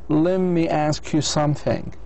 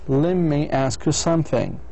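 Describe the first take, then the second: No difference in how they are said.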